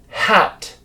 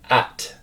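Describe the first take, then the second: First: The word starts with an H sound. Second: The word starts with a vowel. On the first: The speaker calls it right. "a hat that you wear on your head" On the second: The speaker calls it wrong. "a French speaker would say an at"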